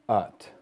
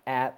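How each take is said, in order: First: The vowel is more open than in bat. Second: The vowel sounds like the one in bat. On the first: The speaker calls it right. "it's just at" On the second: The speaker calls it wrong. "It's not at like in bat"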